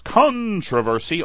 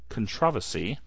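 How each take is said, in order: First: It is said in his usual non-British way. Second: It is said the way English people say it.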